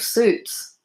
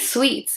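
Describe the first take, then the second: First: The vowel sounds like the one in 'soot'. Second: The vowel sounds like the one in 'sweet'. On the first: This is how English people say it. "instead of suits" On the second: This is how Scottish people say it. "they say sweets"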